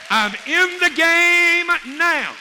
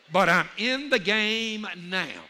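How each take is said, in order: First: Very high, loud, drawn-out holler; full-force exultant shout. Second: Slow, raised and emphatic; rousing declaration. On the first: Preacher rousing congregation to join in, exultant shout. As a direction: belt it out slowly to the whole crowd. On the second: Preacher telling congregation he has joined in, rousing declaration. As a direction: stretch it out with rising conviction. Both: Real, not acted.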